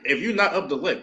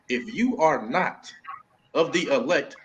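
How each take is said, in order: First: It is said at normal speed. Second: It is said slowly and deliberately.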